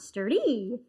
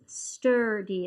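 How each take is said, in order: First: The stress is on the second syllable. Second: The stress is on the first syllable. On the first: The speaker calls it wrong. "It's not sturdy. Maybe some people talk like that, but it's not the right way" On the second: The speaker calls it right. "The accent is sturdy"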